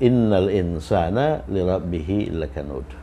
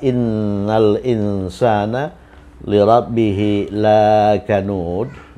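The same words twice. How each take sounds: First: The vowel in "la" is kept short. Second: The vowel in "la" is held long. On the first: Humans are truly ungrateful to their Lord. The speaker calls it right. "dibaca pendek satu harokat saja" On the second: Humans are not ungrateful to their Lord. The speaker calls it wrong. "kalau dia dibaca panjang dua harokat, dia berubah makna dari benar-benar menjadi tidak"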